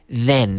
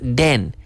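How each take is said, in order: First: The word starts with a 'th' sound. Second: The word starts with a 'd' sound. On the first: The speaker calls it right. "Sacando la lengua" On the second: The speaker calls it wrong. "And not den"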